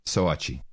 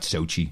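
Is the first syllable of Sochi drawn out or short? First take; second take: drawn out; short. First: The first syllable is drawn out into two vowels. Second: The first syllable is a short single vowel. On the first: The speaker calls it right. "that's the way to pronounce it" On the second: The speaker calls it wrong. "Not Sochi"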